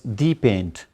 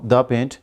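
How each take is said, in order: First: The word 'the' is said as 'thee'. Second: The word 'the' is said as 'thuh'. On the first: "for the sake of emph emphasis" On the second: "not the paint"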